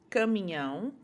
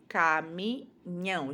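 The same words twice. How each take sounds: First: Said in the usual way. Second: "caminhão" said slowly, falling, each sound clear; slow modelling. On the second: Shown as a demonstration. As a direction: stretch "caminhão" so the ending is heard. ("caminhão" devagar, marcando o final) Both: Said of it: "o ião é feito com".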